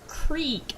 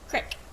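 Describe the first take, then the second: First: It is said in a standard accent, like 'creek'. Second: It is said in a Pittsburgh accent, like 'crick'. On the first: "Instead of creek" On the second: "it's crick"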